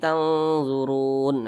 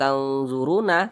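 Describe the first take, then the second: First: The word ends on a bare consonant sound. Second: The word ends with a final vowel sound. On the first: The speaker calls it right. "tapi tanzurun" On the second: The speaker calls it wrong. "tidak tanzuruna"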